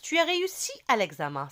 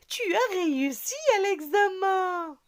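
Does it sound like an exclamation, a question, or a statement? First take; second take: statement; exclamation. First: Flat, even tune, falling at the end. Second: Lively, joyful tone full of surprise. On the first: It simply states a fact. "c'est une phrase simple" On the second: It shows surprise and joy. "il y a l'effet de la surprise, de la joie"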